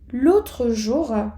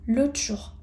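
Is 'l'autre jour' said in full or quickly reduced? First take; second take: full; reduced. First: Every sound of autre is said in full. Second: It is said quickly with autre shortened.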